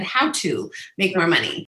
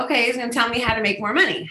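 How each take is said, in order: First: "How" stressed, falling. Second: Said in the usual way. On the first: Shown as a demonstration. Pointing out her own words to the host, stress on How. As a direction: lean on "How" in "How to make more money". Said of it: "notice I said". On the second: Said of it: "I thought".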